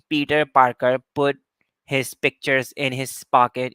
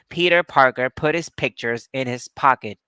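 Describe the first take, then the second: First: The p sounds have no puff of air. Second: The p sounds have a puff of air. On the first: "You're not saying" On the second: "you are aspirating"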